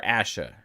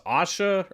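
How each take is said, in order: First: "Asha" with the short "a" of "ash"; short first vowel. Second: "Asha" with a broad "ah" at the start; broad first vowel. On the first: Host trying the other option, "Asha" said ASH-uh. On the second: Host unsure of her name, "Asha" said AH-sha. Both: Shown as a demonstration. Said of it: "is it pronounced Asha or Asha".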